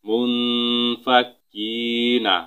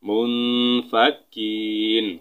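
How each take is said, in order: First: The word ends with an a vowel. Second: The word ends on the n consonant.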